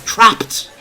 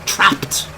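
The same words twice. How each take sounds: First: "Trapped." said higher and relished; savouring the word "Trapped."; savoured word. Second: Breathy, hushed "Trapped."; a frightened hush on "Trapped."; hushed dread. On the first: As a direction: roll "Trapped." round the tongue with relish. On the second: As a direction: let "Trapped." drop to a scared hush. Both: Acted. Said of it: "that's a nice word".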